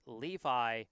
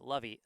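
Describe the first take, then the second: First: The name sounds like the jeans brand. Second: The name does not sound like the jeans brand. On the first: The speaker calls it right. "pronounced Levi, like uh, like the jeans" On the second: The speaker calls it wrong. "I had been pronouncing it Levy"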